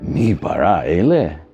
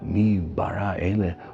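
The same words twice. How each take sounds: First: It is asked as a scornful doubt. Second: It is asked in awed wonder.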